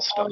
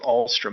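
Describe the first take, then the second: First: No r sound follows the t. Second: An r sound follows the t. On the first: The speaker calls it right. "It's really" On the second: The speaker calls it wrong. "I mispronounced the name"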